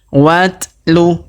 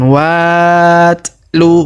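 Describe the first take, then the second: First: The first vowel runs straight into the t. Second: The first vowel is drawn out long. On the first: The speaker calls it right. "Tapi langsung dimasuk sambung ke sini ya" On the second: The speaker calls it wrong. "Bukan dibaca dua harokat ya, bukan watlu"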